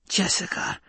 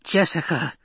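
First: High, airy shocked whisper. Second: High-pitched, contained storyteller's scream. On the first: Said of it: "she whispered". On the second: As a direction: cry out the name as an old woman's scream. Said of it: "the old woman screamed". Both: A narrator's reading.

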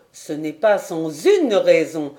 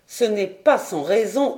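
First: "une" leaned on as a correction; single out the word "une"; "une" stressed, the rest lighter. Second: Said in the usual way. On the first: A narrator's reading. Corrects himself, adding the word une.

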